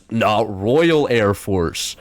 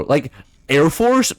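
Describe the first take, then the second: First: "Royal" drawn out slowly and stressed, the rest trailing; slow mock emphasis on Royal. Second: Said in the usual way. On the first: Shown as a demonstration. Streamer mocking British naming, slow stress on "Royal". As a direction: slowly lean on the word "Royal" as if it makes it grander.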